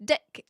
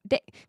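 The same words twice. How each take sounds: First: "Dick." with a clear short i, the word for penis; actual dick. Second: "Dick." said the Kiwi way, like deck with a short clipped i vowel. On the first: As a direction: say "Dick." plainly as the rude word, not as deck. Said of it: "if we were to say a penis, we would say dick". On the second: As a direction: say "Dick." as a New Zealander says deck. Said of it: "'Cause we don't say dick". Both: Shown as a demonstration.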